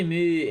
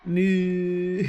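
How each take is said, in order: First: Said in the usual way. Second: "Moo" dragged out as a zombie; long loud zombie moo; Minecraft zombie moo. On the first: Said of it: "If you say". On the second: Shown as a demonstration. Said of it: "in a really deep voice for two to three seconds".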